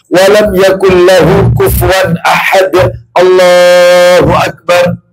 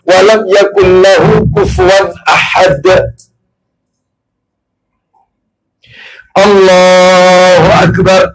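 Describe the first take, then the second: First: It runs straight on without a pause. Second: There is a clear pause before the end. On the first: The prayer is rushed, without calm. The speaker calls it wrong. "Yang nomor satu tidak ada jeda" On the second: The prayer is calm and unhurried. The speaker calls it right. "Contoh yang nomor dua ada"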